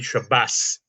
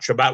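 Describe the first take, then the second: First: It is said the Ashkenazi way, ending in s. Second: It is said the Sephardi way, ending in t.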